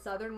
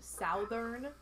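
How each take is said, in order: First: Said in the usual way. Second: Southern said as SOW-thern, first vowel like "south"; imitating a wrong southern, with an OW vowel; quoted mispronunciation. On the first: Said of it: "tell me that southern was pronounced southern". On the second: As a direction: make southern start like the word south. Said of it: "was pronounced southern".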